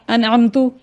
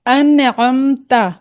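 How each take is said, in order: First: अनअमतु ending in u, with a hamza for the ain; wrong vowel. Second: अनअमता slow, ain from the throat, ending in a; drawn-out अनअमता with a clear final a; correct recitation. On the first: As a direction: say अनअमतु with a final u. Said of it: "ता को पेश कर दिया". (अनअमतु, आख़िर में पेश) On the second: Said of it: "क्या पढ़ दिया इसको". (अनअमता धीरे, अंत में ज़बर) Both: Shown as a demonstration.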